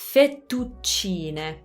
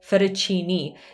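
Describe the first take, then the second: First: It has held double consonants and an Italian ending. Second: It has a flapped T and an English ending. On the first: "Double T and double C, so fettu, little pause before the T's" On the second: "in English we usually say fettuccine. Again, we use the flap T"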